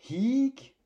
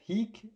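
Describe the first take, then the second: First: The vowel is said long. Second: The vowel is said short. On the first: It means here. "en allongeant" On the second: It means this, pointing to a noun. "quand il est bref"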